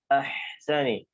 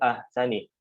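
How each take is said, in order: First: The h is a clear throat sound with air. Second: The h sound is produced in a different way. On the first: The speaker calls it right. "Ahsani ahsani taqwim, ya. Ahsani" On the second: The speaker calls it wrong. "Jadi bukan ahsani"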